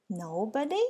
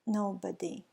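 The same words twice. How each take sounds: First: Gasped question. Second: Mournful. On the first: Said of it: "gasped Mister Happy". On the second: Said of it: "in a mournful, melancholy voice replied". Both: Acted.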